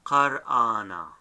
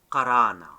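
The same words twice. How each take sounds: First: Qar'ana with a break before the second a; middle alap sounded. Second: Qarana with no break before the second a; common run-together pronunciation. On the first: Teacher giving the right form, qar'ana with alap sounded. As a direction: sound the alap, qar-ana in two parts. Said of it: "is not silent because has the a". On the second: Teacher quoting what most people say, qarana run together. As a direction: slide through qarana, alap silent. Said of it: "people most likely they call it". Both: Shown as a demonstration.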